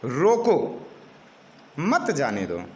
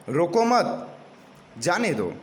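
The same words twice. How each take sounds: First: Firm रोको, a break, then lower मत जाने दो; pause after रोको. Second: रोको मत in one breath, pause, then जाने दो; pause after मत. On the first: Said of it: "विराम चिन्हगत त्रुटि यह है". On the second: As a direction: join मत to रोको, break before जाने दो. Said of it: "यदि हम बाद में विराम चिन्ह लगाते हैं". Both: Shown as a demonstration.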